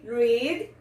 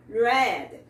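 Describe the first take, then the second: First: "Read" said with a long ee sound; present-tense pronunciation. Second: "read" said with an open e, sounding like "red"; past-tense pronunciation. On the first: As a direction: make "Read" rhyme with "seed". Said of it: "No presente tem o som de I". ("Read" no presente, com som de I) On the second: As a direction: make "read" rhyme with "said". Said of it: "no passado tem o som de E". ("read" no passado, com som de E) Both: Shown as a demonstration.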